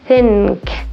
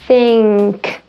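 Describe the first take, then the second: First: The nasal is made with the tongue tip forward. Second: The nasal is made with the tongue back. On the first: The speaker calls it wrong. "a person who's not a native speaker of American English might say think, think, where my tongue is doing some aerobics" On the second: The speaker calls it right. "Your tongue is already going to be back there"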